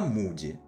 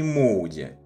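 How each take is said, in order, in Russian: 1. Первый гласный — один простой u. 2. Первый гласный скользит от o к u. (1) "именно так она произносится" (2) "он никакой не Моуди"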